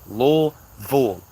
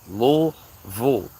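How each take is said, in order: First: It is pronounced the way locals say it. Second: The same.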